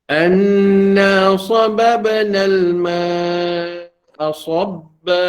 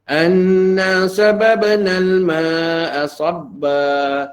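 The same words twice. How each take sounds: First: The 's' sound is pronounced heavy and thick. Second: The 's' sound is pronounced thin and light. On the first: The speaker calls it right. "Jaga ketebalan huruf shad" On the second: The speaker calls it wrong. "Tak cukup ketebalannya"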